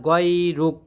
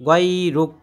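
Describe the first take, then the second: No difference in how they are said.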